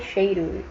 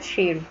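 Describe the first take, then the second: First: Cheiro with the ei glide sounded, chei-ro; full ei. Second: Cheiro said as "chero", no i; swallowed i. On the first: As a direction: say cheiro carefully with the i. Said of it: "quem é que fala cheiro?". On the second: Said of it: "eu só falo cheiro". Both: Shown as a demonstration.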